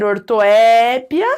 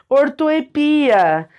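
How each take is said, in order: First: Ortoépia with a long open É, or-to-ÉÉ-pia; stress on É. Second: Ortoepia as or-to-e-PI-a, with a long PI; stress on PI. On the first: Teacher showing accepted variants, ortoépia stressed on a drawn-out É. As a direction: stretch the É in ortoépia. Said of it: "foca no ditongo". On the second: Teacher showing accepted variants, ortoepia stressed slowly on PI. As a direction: move the weight onto PI in ortoepia. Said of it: "foca ali no hiato". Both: Shown as a demonstration.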